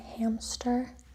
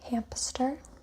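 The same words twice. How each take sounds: First: No p sound comes between m and s. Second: A p sound is inserted between m and s. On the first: "Instead of saying" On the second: "we often insert a voiceless stop. You hear this in"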